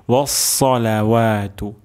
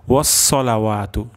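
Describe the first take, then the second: First: ওয়াসসালাওয়াতু with heavy, full s; correct sad. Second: ওয়াসসালাওয়াতু with thin plain s; mispronounced sad. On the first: Teacher gives the careful correct form, heavy sad. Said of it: "সদ উচ্চারণ করতে হবে". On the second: Teacher shows a likely mistake, mispronounced s. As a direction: say a light sin in ওয়াসসালাওয়াতু. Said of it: "আমাদের এমন হয়ে যেতে পারে". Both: Shown as a demonstration.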